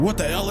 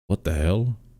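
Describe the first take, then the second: First: The voice sounds lively and excited. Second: The voice sounds sad and subdued. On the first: "for being super excited" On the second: "he was more like somber about it... he sounded really sad"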